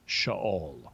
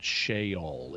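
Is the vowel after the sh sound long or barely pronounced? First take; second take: barely pronounced; long. First: The E after sh is short, barely pronounced. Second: The E after sh is a long 'ee' vowel. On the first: The speaker calls it right. "a Hebrew short E. So you don't really pronounce it" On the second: The speaker calls it wrong. "It's not a long E. It's not Sheol"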